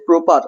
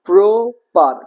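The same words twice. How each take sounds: First: Said in the usual way. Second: প্রপার split into pro-par, both stretched; two separate beats on প্রপার; syllable by syllable. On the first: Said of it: "প্রপার কবার উচ্চারণ হচ্ছে". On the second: Shown as a demonstration. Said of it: "কবার উচ্চারণ হচ্ছে".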